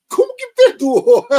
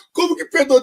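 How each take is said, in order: First: High, loud, disbelieving cry; outraged high-pitched disbelief; incredulous. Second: Incredulous. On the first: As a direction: shriek it in disbelief. Incredulous at God's logic. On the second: Repeats her disbelief. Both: Real, not acted.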